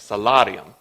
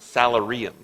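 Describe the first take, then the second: First: It is said in a plain accent. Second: It is said in a Texan accent.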